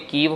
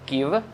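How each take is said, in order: First: The vowel after k is a long 'ee'. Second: The vowel after k is a short 'i'. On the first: "वो तो बिल्कुल ही गलत है" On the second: "फिर वो हिंदी वाला हो जाएगा"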